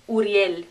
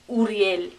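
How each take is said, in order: First: It is said with Spanish vowels and sounds. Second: The same.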